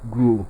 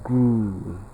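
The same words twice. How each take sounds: First: The vowel is said short. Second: The vowel is said long. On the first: The speaker calls it wrong. "not grew" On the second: The speaker calls it right. "Option B here is pronounced as grew ... So we have long O here"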